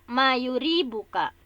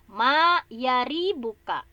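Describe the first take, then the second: First: The vowel after the y is u. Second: The vowel after the y is a. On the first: The speaker calls it wrong. "kalau tadi ini e, bukan dengan ianya, dengan bukan dengan domah ya" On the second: The speaker calls it right. "tapi dibacanya dengan fathah"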